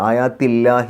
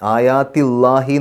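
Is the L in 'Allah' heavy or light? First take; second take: light; heavy. First: The L in Allah sounds thin and light. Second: The L in Allah sounds heavy and full. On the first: The speaker calls it right. "ഇല്ല എന്നുള്ള ഉച്ചാരണമാണ് കൊടുക്കുക" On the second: The speaker calls it wrong. "എന്ന് പറയില്ല"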